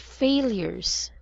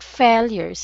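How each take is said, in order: First: The first syllable is said as 'fay'. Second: The first syllable is not said as 'fay'. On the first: The speaker calls it right. "it's failures" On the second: The speaker calls it wrong. "Not failures"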